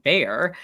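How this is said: The name is said the American way.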